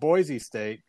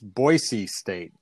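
First: The middle consonant is a z sound. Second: The middle consonant is an s sound. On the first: The speaker is not from the state. The speaker calls it wrong. "it's not Boise State" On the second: The speaker is from the state. The speaker calls it right. "It's Boise State"

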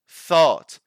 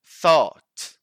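Both takes have the same delivery.

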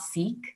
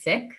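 First: It uses the anglicized pronunciation of the word. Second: It uses the Punjabi pronunciation of the word. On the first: This is the form used to accommodate non-Punjabi speakers. The speaker calls it wrong. "It's not Sikh" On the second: This is the community's own pronunciation. The speaker calls it right. "So the correct pronunciation is Sikh"

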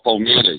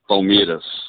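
First: Carioca accent, with the 'i' sound pronounced. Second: São Paulo accent, with the 'i' sound dropped.

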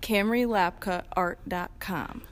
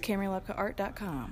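First: It is said slowly and carefully. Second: It is said at a normal, quick pace.

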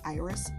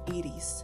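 First: The name is said with an American English pronunciation. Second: The name is said with a Spanish pronunciation. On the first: "everyone American-wise, or, you know, saying Iris" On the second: "if you want to say it in Spanish"

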